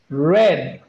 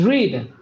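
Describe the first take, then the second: First: The vowel is short, as in 'red'. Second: The vowel is long, as in 'reed'. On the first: The action happened in the past. "in past is red, like the color" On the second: The action happens in the present. "In present is read"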